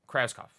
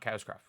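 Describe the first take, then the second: First: The R sound comes right after the K. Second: The R sound is placed elsewhere in the word. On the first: The speaker calls it right. "Krauskopf, not Krauskopf" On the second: The speaker calls it wrong. "I always put the R in the wrong place"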